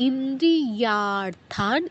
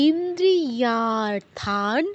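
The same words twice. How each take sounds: No difference in how they are said.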